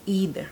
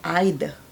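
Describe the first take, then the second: First: It is said with an American accent. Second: It is said with a British accent.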